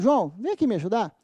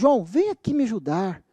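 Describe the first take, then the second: First: It sounds like a polite, asking request. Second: It sounds like desperate, begging pleading. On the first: The listener is being asked to help. "em tom de pedido" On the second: The listener is being begged to help. "Em tom de súplica"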